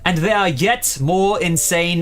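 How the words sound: It is read in a put-on British accent. The speaker calls it right. "that's supposed to be British"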